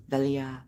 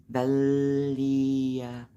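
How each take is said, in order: First: Said in the usual way. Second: "Velia" stretched out slowly, each sound held; drawn-out pronunciation. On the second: Real, not acted. Streamer trying out a friend's name, "Velia" long and drawn out. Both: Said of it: "I don't know how to pronounce the name".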